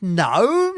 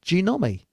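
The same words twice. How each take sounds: First: "Gnome" as one syllable, silent g. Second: "Genomi" in three parts, juh-NOM-ee; three syllables. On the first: Bloke querying the call sign, "Gnome" in one syllable. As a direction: say "Gnome" as a single questioning syllable. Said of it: "That's not two syllables". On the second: Bloke fixing the call sign, "Genomi" in three syllables. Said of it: "Three syllables". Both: Retold or imitated.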